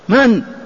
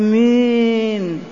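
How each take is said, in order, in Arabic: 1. الحركة قصيرة وعادية. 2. الحركة ممدودة ومُمالة. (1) "هكذا قولا معروفة" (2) "لم هذه الإمالة هذه"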